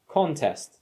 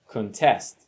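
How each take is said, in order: First: The stress is on the first syllable. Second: The stress is on the second syllable.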